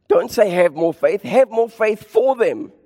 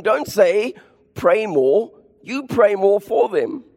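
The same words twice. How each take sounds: First: Preacher stressing have; emphatic contrast. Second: Preacher stressing pray; emphatic contrast. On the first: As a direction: hit HAVE in Have more faith for them. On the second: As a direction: PRAY punched high and slow. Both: Real, not acted. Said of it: "contrast don't say vs do".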